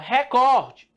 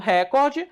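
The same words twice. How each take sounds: First: The stress is on the second syllable. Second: The stress is on the first syllable. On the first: The speaker calls it right. "A força não está no ré. A força está onde? O cor. Então é recorde" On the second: The speaker calls it wrong. "Se eu falo recorde, então a tonicidade está aqui, né? Se está aqui, meu filho, ela é uma proparoxítona"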